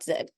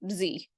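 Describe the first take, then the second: First: The letter is given its British name. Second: The letter is given its American name. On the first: "and not Z" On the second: "the United States is the only ones, we're the only ones that pronounce the letter Z as Z"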